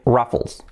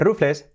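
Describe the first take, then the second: First: The word is pronounced with English sounds. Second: The word is pronounced with Spanish sounds. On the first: The speaker calls it right. "agarraos que se dice Ruffles" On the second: The speaker calls it wrong. "no se dice Ruffles"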